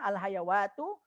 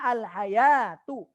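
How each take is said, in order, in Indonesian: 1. Bunyi w diucapkan di tengah. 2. Tidak ada bunyi w yang diucapkan di tengah. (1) "ya ini salah" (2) "Dibacanya al-hayatu"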